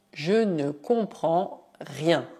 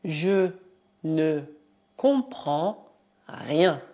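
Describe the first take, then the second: First: Said in the usual way. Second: "je ne comprends rien" said word by word, slowly; teacher dictating slowly; slow dictation. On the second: Shown as a demonstration. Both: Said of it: "Por exemplo".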